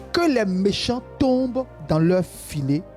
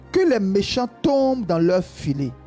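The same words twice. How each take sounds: No difference in how they are said.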